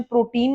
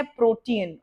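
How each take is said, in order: First: Put-on प्रोटीन said like the food word, pro-teen with a long final ee; प्रोटीन run together as two syllables, pro-TEEN; wrong pronunciation. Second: प्रोटीन said pro-tee-un, three syllables; प्रोटीन with a short final "un", not "teen"; correct pronunciation. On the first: Teacher showing students the wrong way to say it, pro-teen. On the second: Teacher giving students the right way to say it, pro-tee-un. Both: Shown as a demonstration. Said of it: "इसका pronunciation प्रोटीन नहीं है".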